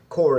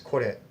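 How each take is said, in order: First: It is said with an American English r sound. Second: It is said with a Japanese tapped r sound. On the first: The speaker calls it wrong. "the American way to say it" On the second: The speaker calls it right. "the correct Japanese pronunciation is kore"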